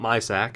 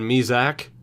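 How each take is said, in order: First: The middle consonant sounds like an S. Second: The middle consonant sounds like a Z. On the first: The speaker calls it wrong. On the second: The speaker calls it right. "I believe is the correct pronunciation"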